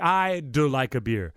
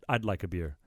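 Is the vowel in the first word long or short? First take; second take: long; short. First: The first vowel is drawn out long. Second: The first vowel is clipped short. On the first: It sounds like 'I like a beer'. The speaker calls it wrong. "If you if you elongated the I" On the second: It is a normal contraction. The speaker calls it right. "we bite it"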